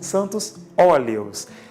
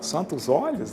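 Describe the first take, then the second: First: The two words are clearly separated. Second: The two words are run together as one. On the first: This is the intended term, holy oils. The speaker calls it right. "Eu digo óleos pronunciado assim" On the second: This is how a child misheard the term. The speaker calls it wrong. "quando eu era criança me falavam da missa dos Santos Óleos. Eu pensava"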